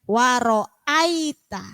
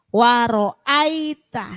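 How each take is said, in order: The two takes are said the same way.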